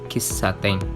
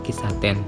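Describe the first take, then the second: First: The middle consonant is doubled and held. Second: The middle consonant is single and short. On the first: The speaker calls it right. "diucapkan double" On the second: The speaker calls it wrong.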